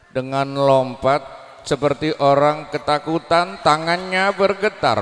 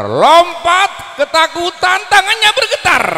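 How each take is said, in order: First: Said in the usual way. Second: Frightened cry, slowed down; acted fear. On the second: Shown as a demonstration. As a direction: act out the trembling terror, much higher and louder.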